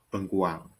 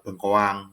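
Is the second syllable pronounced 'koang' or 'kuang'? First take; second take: kuang; koang. First: The second syllable is pronounced 'kuang'. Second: The second syllable is pronounced 'koang'. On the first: This is the standard form. "bakunya adalah bengkuang" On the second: This is the informal everyday form. "itu kan tidak bakunya bengkoang"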